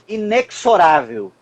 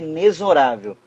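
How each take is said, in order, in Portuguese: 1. O x soa como ks. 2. O x soa como z. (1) "Outra pronúncia equivocada, quando alguém diz assim" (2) "a pronúncia é inexorável. O X tem som de Z"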